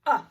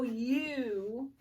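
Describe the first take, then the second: First: "uh" cut short, as in hug; short U sound. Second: "U" drawn out as you; long U sound. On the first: Teacher showing first graders the short sound, short U. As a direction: say a brief "uh". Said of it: "short sound is gonna go". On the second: Teacher showing first graders the long sound, long U. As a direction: hold "U" as the vowel's own name, you. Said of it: "long sound is gonna go". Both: Shown as a demonstration.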